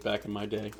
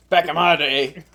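First: Said in the usual way. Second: Higher, louder hammed-up repeat; mock old-timer cry. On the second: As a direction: call it out like a self-mocking veteran. Mock repeat of own phrase.

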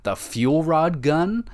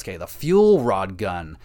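First: "The fuel rod gun?" asked slowly with a high rising end; unsure, checking the name, pitch climbing on "gun"; doubtful question. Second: "Okay, the fuel rod gun." slow with a falling end, confirming the name; name it firmly now that you're sure; settled confirmation. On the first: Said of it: "this is what it's called?". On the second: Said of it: "Okay, that's what it was". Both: Real, not acted.

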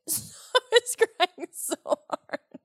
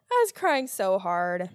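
First: High laughing giggle through the words. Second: Said in the usual way. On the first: Real, not acted. Telling viewers about her crying fit, laughing slowly. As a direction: laugh it out, slow.

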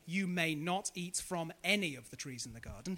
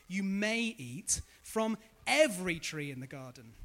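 First: "not" pushed as the twisted command; wrong version. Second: "every" stressed, generous; right version. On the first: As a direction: say "You may not eat" as the misquote. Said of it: "He does not say". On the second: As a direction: open up on "every". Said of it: "He says". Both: Shown as a demonstration.

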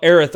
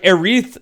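First: Said in the usual way. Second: "Aerith" with a long EE in the second syllable; habitual mispronunciation. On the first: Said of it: "Aerith or whatever". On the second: Real, not acted. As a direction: say "Aerith" as air-EETH. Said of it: "habit of calling her Aerith".

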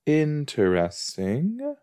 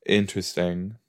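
First: Slow, rising "Interesting."; drawn-out interesting. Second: Said in the usual way. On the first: Shown as a demonstration. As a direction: stretch "Interesting" out slowly with a rise.

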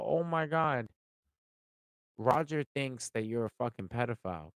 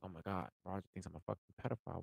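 First: Loud, high, hammed-up gasping gossip; mock shocked announcement; mock alarm. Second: Soft, quick, fretful muttering to oneself; hushed anxious echo; mock worried. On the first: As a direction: play the scandalised gossip breaking the news. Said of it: "if I sit here and go". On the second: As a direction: mumble it like a nervous friend.

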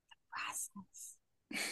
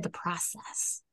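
First: Hushed, drawn-out whisper; very soft, slow whispered repeat; whispered echo. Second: Said in the usual way. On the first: Real, not acted. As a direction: whisper it slowly as an aside.

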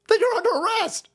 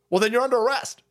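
First: Much higher-pitched exclamation; escalating mock outrage. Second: Slightly raised, matter-of-fact retort; firm mock judge. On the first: Judge ordering county officials arrested, high-pitched mock outrage. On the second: Judge answering Georgia county's excuse, firm mock retort. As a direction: play the judge answering back, first take.

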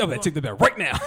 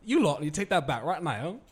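First: Loud, higher-pitched demand in American English; hammed-up outrage, very loud; mock angry shout. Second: Loud, higher-pitched British telling-off; hammed-up English accent, shouted; mock English accent. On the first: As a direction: shout it like scolding a crowd. Acting out confronting the crowd. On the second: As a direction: scold the crowd in a put-on English accent. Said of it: "but in English accent".

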